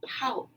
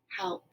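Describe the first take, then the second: First: It is said with a rising, questioning tune. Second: It is said flatly, as a plain statement.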